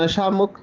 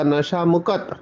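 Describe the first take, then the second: First: The last word is one syllable, mukt. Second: The last word is two syllables, mukat. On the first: This is how we usually say it. "हम नशा मुक्त कहते हैं" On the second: This is how people here in Punjab say it. "यहाँ का pronunciation होगा नशा मुकत"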